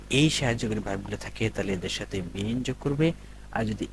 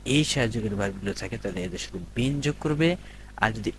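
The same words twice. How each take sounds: The two takes are said the same way.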